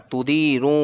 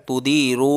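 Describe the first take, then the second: No difference in how they are said.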